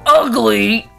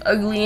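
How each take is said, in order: First: The word is shouted loudly and forcefully. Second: The word is said quietly and flatly. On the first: The speaker calls it right. "it's all caps" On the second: The speaker calls it wrong. "Sorry, I said it wrong"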